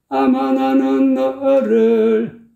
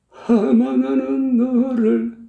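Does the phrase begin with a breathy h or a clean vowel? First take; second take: clean vowel; breathy h. First: The first vowel starts cleanly without any h sound. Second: The first vowel starts with a breathy h sound. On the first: The speaker calls it right. "깔끔하잖아요" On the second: The speaker calls it wrong. "이건 아니잖아요"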